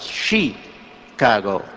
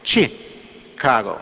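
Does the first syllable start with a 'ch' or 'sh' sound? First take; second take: sh; ch. First: The first syllable starts with an 'sh' sound. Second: The first syllable starts with a 'ch' sound. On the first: The speaker calls it wrong. "you don't pronounce it Chicago" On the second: The speaker calls it right. "it's chi, like chick, you know, or like chicken"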